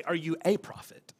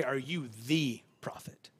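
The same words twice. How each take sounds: First: "a" said as a full "ay"; stress on A. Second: "the" drawn out as "thee"; stress on THE. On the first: Preacher contrasting the question they didn't ask, stress on "a". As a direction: lean on "a" as the word in question. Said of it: "notice they don't say". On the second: Preacher showing what they really asked, long stressed "the". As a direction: hold "the" long, then drop softly onto prophet. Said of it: "That definite article". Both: Shown as a demonstration.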